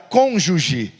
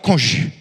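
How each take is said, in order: First: The word is pronounced in the standard way. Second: The word is pronounced in an unusual way. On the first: The speaker calls it right. "ao invés de falar cônjuge" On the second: The speaker calls it wrong. "ele falava cônjuge"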